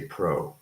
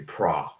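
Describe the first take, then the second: First: The vowel is a rounded 'oh' sound. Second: The vowel is a flat 'ah' sound. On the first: The speaker calls it wrong. "we don't say pro" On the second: The speaker calls it right. "This is a flat vowel. ... we say pra"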